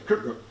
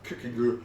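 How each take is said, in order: First: The name is said quickly and compressed. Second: The name is said slowly and carefully. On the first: This is how native speakers actually say it. "in Danish they just say Kierkegaard. It's that fast" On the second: This is the technically correct form. "So it's technically Kierkegaard"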